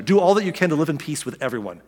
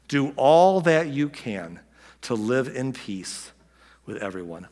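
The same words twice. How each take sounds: First: Said in the usual way. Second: Slow, weighty reading of the verse. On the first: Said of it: "I just love this verse so much". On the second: Shown as a demonstration. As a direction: lay each word down slowly. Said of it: "Paul closes by saying".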